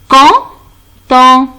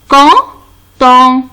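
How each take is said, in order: No difference in how they are said.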